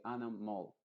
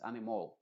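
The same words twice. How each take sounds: First: "animal" con la última vocal muy corta y neutra; schwa cortita. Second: "animal" con una O clara al final; O final plena. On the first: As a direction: di "animal" sin O clara, reduciendo el final. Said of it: "pero muy cortita". ("animal" con schwa breve) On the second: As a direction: di "animal" como "animol", con O redonda. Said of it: "no es una O". ("animal" con la última vocal hecha O) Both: Shown as a demonstration.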